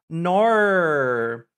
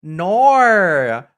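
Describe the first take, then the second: First: Australian no. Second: Australian "Nor." drawn out loud and high. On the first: Echoing the Australian no for chat, in an Australian accent. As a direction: repeat the Australian "Nor." lightly. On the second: Demonstrating how Australians say no, in a strong Australian accent. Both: Shown as a demonstration. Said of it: "sounds like a very strong nor".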